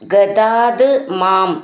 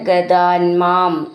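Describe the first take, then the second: First: The two words are said separately, ending in t. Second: The two words are joined, with t becoming n.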